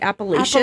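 It is said the way people say it in Utah.

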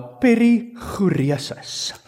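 It is said with an Afrikaans accent. "I'm going to say it with Afrikaans accent now"

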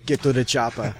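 It is said in a strong put-on accent.

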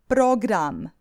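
It is pronounced with Croatian sounds.

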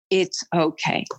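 It is said in a firm, stern, fatherly voice. The listener is being told firmly, with authority. "more like a stern, fatherly voice"

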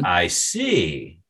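It sounds haughty and sneering. The speaker is angry and will get even. "with a haughty tone and a sneer"

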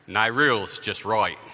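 It is said in a put-on Australian accent.

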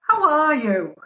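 It is said in a posher accent.

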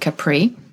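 It is pronounced the way English speakers say it. The speaker calls it wrong. "a lot of times I would say English speakers call it Capri"

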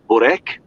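It is said with a Serbian pronunciation.

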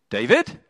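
The voice rises at the end.

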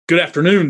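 It sounds curt and snippy. The greeting is a cold brush-off. "somebody's a little bit snitty"

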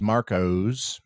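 The name has an o-u glide and final z.

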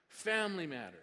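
The stress falls on the word 'family'. It is about issues concerning the family. "it's entitled Family Matters"

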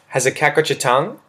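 The voice rises at the end.

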